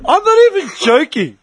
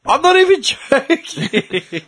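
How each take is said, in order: First: Said in the usual way. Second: Slow, higher, giggling through it; can't keep a straight face; laughing it out. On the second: Real, not acted. Repeats while laughing.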